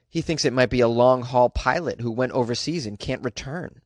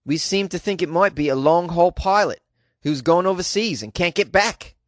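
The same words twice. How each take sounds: First: Said in the usual way. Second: Dubious mock Australian accent; attempted Australian accent. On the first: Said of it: "What he said was". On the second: Host quoting Mister Spry, in a doubtful Australian accent. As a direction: put on a shaky-quality Australian accent for the quote. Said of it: "Is that an Australian accent?".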